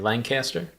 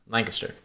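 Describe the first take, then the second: First: The name is said in distinct separate parts. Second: The name is run together as one unit. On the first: This is how outsiders say it. The speaker calls it wrong. "people from out of town would say Lancaster" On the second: This is how locals say it. The speaker calls it right. "locals would have you say, no, no, no, Lancaster, all one word"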